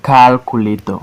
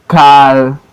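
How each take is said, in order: First: Said in the usual way. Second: CAL, CU, LA, TOR as separate beats; syllable by syllable. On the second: Shown as a demonstration. Teacher showing four syllable words, Calculator broken as CAL-CU-LA-TOR. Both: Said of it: "Four syllable word".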